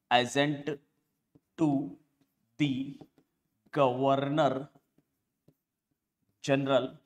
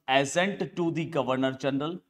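First: Slow, with a long pause after each word; word-by-word dictation. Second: Said in the usual way. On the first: Shown as a demonstration. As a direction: dictate it one word at a time. Repeats term word by word for notes. (शब्द-दर-शब्द, रुक-रुककर लिखवाते हुए)

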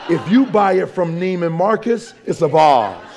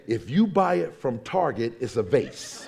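First: Loud, grand "vase" with a broad ah; hammed-up fancy "vase", vahz. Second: "vase" said plainly as vayss; everyday "vase" with an ay, dropping away; vase rhyming with face. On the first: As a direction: announce "vase" as a big vahz. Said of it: "do you pronounce it vase". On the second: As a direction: say the ordinary "vase", like base. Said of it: "Do you pronounce it vase". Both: Shown as a demonstration.

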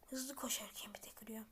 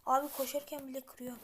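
First: Whisper. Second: Said in the usual way. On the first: Real, not acted. Repeats the same line whispered.

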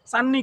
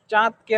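First: চান্নি as "san-ni", doubled n; Gazipur dialect. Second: Said in the usual way. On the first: Shown as a demonstration. (গাজীপুরের উচ্চারণে চান্নি, দ ছাড়া) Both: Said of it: "গাজীপুরের আঞ্চলিক ভাষায়".

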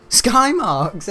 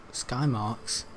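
First: Louder, higher, laughing it out. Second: Said in the usual way. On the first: Real, not acted. Amused by his own horse name, laughing. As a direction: crack up on the name.

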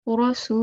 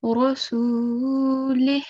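First: Every ending vowel sounded, "li-hii"; full vowel ending. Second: Rasulih with long "suu", ending on an airy "h"; slow recited rasulih, cut at "lih"; stopped with sukoon. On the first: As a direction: recite rasulihi, stretching the last "hi". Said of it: "So instead of saying". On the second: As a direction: drop the final "i" and breathe out the "h". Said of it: "it will change as". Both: Shown as a demonstration.

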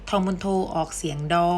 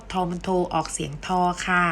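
First: ฑ read out with a hard d sound, "ดอ". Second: ฑ read out with an aspirated t sound, "ทอ". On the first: Teacher showing students the first of two sounds, ดอ with a d. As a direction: end "ทอมุนโทออกเสียงดอ" on a clear d in ดอ. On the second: Teacher showing students the second of two sounds, ทอ with aspirated t. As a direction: end "ทอมุนโทออกเสียงทอ" on an airy t in ทอ. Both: Shown as a demonstration. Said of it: "จะแบ่งออกเป็นสองเสียง".

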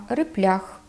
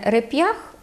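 First: Реплях with soft l after p; dialect soft л. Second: Said in the usual way. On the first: Shown as a demonstration. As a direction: Podillia реплях, "rep-LYAKH". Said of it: "«л» і «н» після губних". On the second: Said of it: "Кажуть не".

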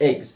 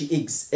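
First: "eggs" with an open "eh" vowel. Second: "eggs" mispronounced as "iggs"; wrong vowel. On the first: Teacher corrects the learners, "eggs" with open eh. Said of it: "خد بالك من نطق حرف ال E. بنطقه مفتوح كده". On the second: Teacher shows what not to say, "eggs" as "iggs". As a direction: say "eggs" with a closed short i at the start. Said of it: "ما اقولش eggs". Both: Shown as a demonstration.

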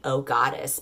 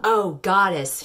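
First: Said in the usual way. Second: Slow drawn-out "Oh, goddess" moaned; mock moan. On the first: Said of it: "she's not saying, "Oh, God," she's saying". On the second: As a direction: stretch "Oh" in a hammed-up moan. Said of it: "she moaned".

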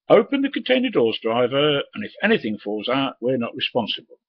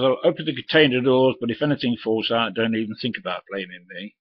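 First: High, loud, bossy sneering voice; mocking cocky youth. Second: Firm, a bit louder answer thrown back; defiant retort. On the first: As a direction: mimic the cocky dock lad ordering him about. Cocky youth ordering the driver. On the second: Retold or imitated. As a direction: throw his own words back at him. Driver snaps back at the youth.

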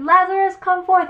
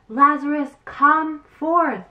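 First: Much higher and louder, a full commanding cry; louder call. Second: Calling out to the tomb, raised and commanding; loud call. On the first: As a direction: shout it out to the cave, higher and louder. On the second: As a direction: summon him from the grave in a strong voice. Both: Acted. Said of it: "cried with a loud voice".

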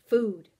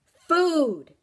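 First: Said in the usual way. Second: High, loud demanding shout; loud hungry creature's demand; insistent demand. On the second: Acted. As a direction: shout FOOD, drawn out and insistent. Creature insists after being refused.

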